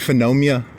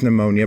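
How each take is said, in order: First: The word begins with an F sound. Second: The word begins with an N sound. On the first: The speaker calls it wrong. "I always want to say phenomia" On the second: The speaker calls it right. "I think I said it right"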